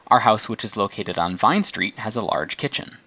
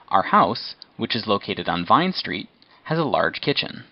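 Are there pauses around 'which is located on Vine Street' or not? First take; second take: no pauses; pauses. First: It is said without pauses around the clause. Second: There are short pauses around 'which is located on Vine Street'.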